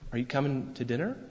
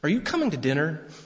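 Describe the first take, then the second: First: It sounds like a curious, innocent question. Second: It sounds like an accusing, annoyed question.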